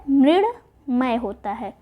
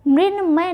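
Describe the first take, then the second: First: Mrunmay said slowly as the right form; Mrunmay drawn out at half speed; slow correct form. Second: Said in the usual way. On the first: Shown as a demonstration. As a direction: spell out Mrunmay slowly for students. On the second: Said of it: "मृण्मय नहीं होता है".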